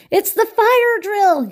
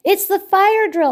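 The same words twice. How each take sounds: First: High, loud alarmed yell, drawn out slowly. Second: High, loud excited shout; excited cry. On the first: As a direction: shout it out as if the alarm just rang. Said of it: "yelled Cockroach". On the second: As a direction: announce it to everyone with alarm. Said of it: "Octopus cried". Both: A narrator's reading.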